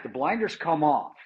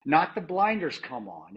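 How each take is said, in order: First: "The blinders come off" with a firm fall on "off"; corrected version, stress on "off". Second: Slow, rejecting "not the blinders come on", leaning on "on"; wrong version, stress on "on". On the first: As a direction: correct it, landing hard on "off". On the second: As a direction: set up "come on" as the wrong phrase, dismissively. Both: Shown as a demonstration. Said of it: "It's not that".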